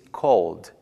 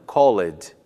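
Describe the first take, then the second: First: The ending is a plain d with no vowel. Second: An extra vowel sound comes before the final d. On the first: The speaker calls it right. "pronuncia-se called" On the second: The speaker calls it wrong. "e não called, incluindo o som da vogal e"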